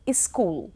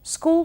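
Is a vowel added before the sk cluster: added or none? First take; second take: added; none. First: A vowel is added before the sk cluster. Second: The word starts directly with the sk cluster.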